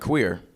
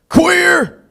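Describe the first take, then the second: First: It is said in a neutral, relaxed tone. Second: It is said in a hostile, macho tone.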